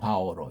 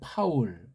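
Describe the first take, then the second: First: It is said as three syllables with added vowels. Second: It is said as one short syllable. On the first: The speaker calls it wrong. "쓸데없는 첨가" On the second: The speaker calls it right. "파울 해야 되는데"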